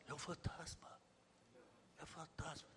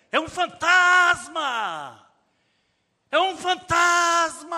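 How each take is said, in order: First: "fantasma" said very softly and flat, no fear at all; flat mumble. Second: High, loud, drawn-out cry of "fantasma"; terrified scream. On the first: Shown as a demonstration. Preacher showing how the disciples did not say it, softly and flat. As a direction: mumble it as if it were nothing. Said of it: "Não falaram assim". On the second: Acted. Preacher voicing the terrified disciples, screaming in fear. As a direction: scream it like you've seen a ghost.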